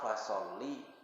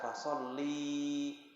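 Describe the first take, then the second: First: The final vowel is short. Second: The final vowel is drawn out long. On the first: It commands a man to pray. The speaker calls it right. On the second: It commands a woman to pray. The speaker calls it wrong.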